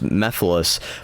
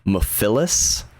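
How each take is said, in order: First: The stress falls early, not on the ending. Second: The stress falls late, on the 'philes' ending. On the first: The speaker calls it right. "properly pronounced" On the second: The speaker calls it wrong. "they really emphasized the Phyllis"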